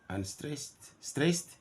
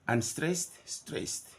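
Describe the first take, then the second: No difference in how they are said.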